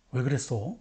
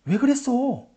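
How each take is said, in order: First: Low, soft, genuinely asking why; sincere question. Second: Higher, reproachful rhetorical why; rhetorical question. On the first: Teacher demos a real question, low and soft. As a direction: ask it because you really want to know. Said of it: "참 의문문은". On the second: Teacher demos an empty question, pitched higher. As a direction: ask it as a reproach, no answer wanted. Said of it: "빈 의문문은". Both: Shown as a demonstration.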